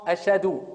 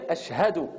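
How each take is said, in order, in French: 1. Le son h au milieu est omis. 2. Le son h au milieu est bien prononcé. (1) "Ils disent pas le ha" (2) "il faut dire Ashhadu"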